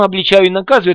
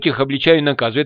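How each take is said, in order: First: It is said in a fawning, ingratiating tone. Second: It is said in a plain, neutral tone.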